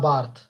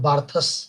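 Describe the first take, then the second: First: The name ends without an s sound. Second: The name ends with a sounded s. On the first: The speaker calls it right. "it is Roland Barthes" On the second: The speaker calls it wrong. "It is not Barthus"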